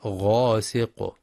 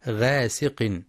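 First: غاسق slowly, with a full heavy غ; heavy ghayn, right. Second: غاسق with a thin, light غ; light ghayn, wrong. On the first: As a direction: thicken the غ of غاسق. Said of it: "وإنما غاسق". (غاسق بتفخيم الغين) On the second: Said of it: "فلا يقرأ غاسق بالترقيق". (غاسق بترقيق الغين خطأ) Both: Shown as a demonstration.

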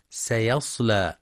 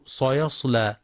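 First: سيصلى with a thin, light s; سيصلى, clear light sin at the start; correct light sin. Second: Sayasla with a thick, emphatic s, like ṣad; صيصلى, dark heavy first consonant; mispronounced heavy sin. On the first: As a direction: keep the first s of سيصلى light, not like ص. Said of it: "والصواب ترقيقها". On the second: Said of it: "فيقرأ صيصلى بتفخيم السين". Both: Shown as a demonstration.

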